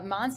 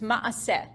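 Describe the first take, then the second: First: An n sound comes before the s. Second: No n sound comes before the s. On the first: It reflects a Polish-Ukrainian Yiddish dialect. "that pronunciation is like Poland, Ukraine" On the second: It is the original Hebrew form. "It's the Hebrew word maaseh"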